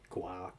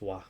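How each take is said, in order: First: The syllable begins with a hard G sound. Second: The syllable begins with a W sound. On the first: The speaker calls it wrong. "you don't say gua" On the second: The speaker calls it right. "G U is pronounced like a W"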